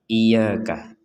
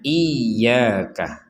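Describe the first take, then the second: First: The y sound is light and single. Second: The y sound is pressed and doubled. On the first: The speaker calls it wrong. "Jangan sampai dibaca sekedar iyyaka" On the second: The speaker calls it right. "harus ditekan. Jadi kita harus membacanya iyyaka"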